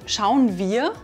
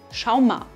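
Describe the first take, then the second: First: The words are said in full standard form. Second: The words are contracted, with 'wir' becoming 'ma'. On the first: "statt wir ma sagen" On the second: "wird zu schau ma"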